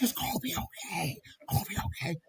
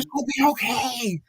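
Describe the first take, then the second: First: Breathy, softer, overly enunciated; mock reassurance breathed in his face; enunciated bad breath. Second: Higher-pitched reassurance voice; mock friend soothing him; bad-breath friend. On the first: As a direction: push out each word on a breath. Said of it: "those words are enunciated". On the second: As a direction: say it in her comforting tone. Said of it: "She's like".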